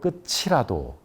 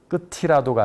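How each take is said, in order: First: The linked consonant is a ch sound. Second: The linked consonant is a t sound. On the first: The speaker calls it right. "티읕을 왜 치읓으로 발음할까요" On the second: The speaker calls it wrong. "아니고"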